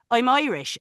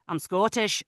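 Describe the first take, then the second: First: Higher-pitched Irish key phrase; put-on Irish lilt; Irish accent. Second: Short Scottish key phrase; put-on Scottish accent. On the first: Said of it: "have to go to the Irish". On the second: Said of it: "and then I'll say". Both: Shown as a demonstration.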